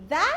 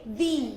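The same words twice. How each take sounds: First: "the" with a short uh vowel; "the" as thuh. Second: "the" with a long ee vowel, falling; "the" as thee. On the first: Teacher offering learners the first option, "the" as thuh. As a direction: say "the" as "thuh", voiced TH. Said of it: "You can say the". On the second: Teacher offering learners the other option, "the" as thee. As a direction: say "the" as "thee", voiced TH. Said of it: "or you can say the". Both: Shown as a demonstration.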